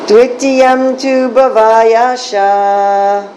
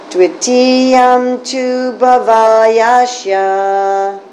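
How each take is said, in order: First: It is said at a faster pace. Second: It is said at a slower pace.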